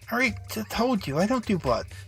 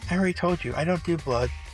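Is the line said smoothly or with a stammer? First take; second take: stammer; smoothly. First: It is said stammering in the intended character's voice. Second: It is said smoothly in another character's voice.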